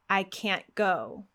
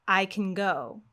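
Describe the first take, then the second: First: "I can't go" slow, full vowel in "can't", T stopped in the throat; slow "can't" with an unreleased T; stressed can't. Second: "I can go" with "can" short and reduced, weight on "go"; reduced vowel in "can", stress on "go"; unstressed can. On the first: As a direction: give "can't" full weight before "go". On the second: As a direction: pass lightly over "can", land on "go". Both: Shown as a demonstration. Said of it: "listen again to the difference between these two phrases".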